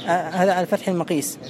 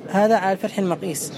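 Both takes have the same delivery.

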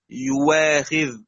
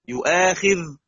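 First: The second consonant is a w sound. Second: The second consonant is a glottal stop.

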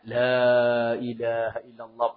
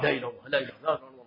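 First: The phrase is said slowly and softly. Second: The phrase is said very quickly. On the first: It accompanies the first measured steps with the bier. "pelan ucapnya" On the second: It accompanies walking briskly, almost running. "La ilaha illallahnya cepat banget"

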